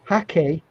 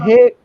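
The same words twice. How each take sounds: First: It is said to sound like a Japanese word. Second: It is said as a plain English word. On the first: "some people in America call them hake brushes... trying to make it sound like Japanese" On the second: "This is called a, a hake brush in English"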